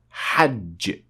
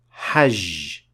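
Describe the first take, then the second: First: The j is a short stopped sound. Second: The j is a continuous hissing zh sound. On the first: The speaker calls it right. "the word hajj" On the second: The speaker calls it wrong. "it is mispronounced as hajj, and that is not correct"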